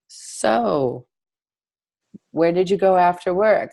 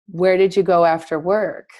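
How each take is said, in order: First: It is asked hesitantly, working up to it. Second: It is asked directly, without hesitation.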